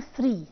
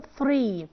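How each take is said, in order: First: "ثري" said as "sree"; tongue inside, "ثري" becomes "sree"; wrong TH, as S. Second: "ثري" with a true voiceless TH; tongue out between the teeth on "ثري"; correct TH. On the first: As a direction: hiss an S at the start of "ثري". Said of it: "ما ينفعش اقول ثري". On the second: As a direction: clear "three", no S, in "ثري". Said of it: "بطلع لساني". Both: Shown as a demonstration.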